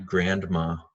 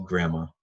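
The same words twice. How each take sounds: First: The 'nd' sound in the middle is clearly pronounced. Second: The 'nd' sound in the middle is dropped. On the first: The speaker calls it wrong. "não é grandma" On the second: The speaker calls it right. "é só grandma ... como se não tivesse N D"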